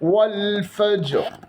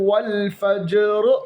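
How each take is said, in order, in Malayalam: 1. ജ് ന് പ്രതിധ്വനിയുള്ള കുതിപ്പില്ല. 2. ജ് ന് പ്രതിധ്വനിയുള്ള ഒരു കുതിപ്പുണ്ട്.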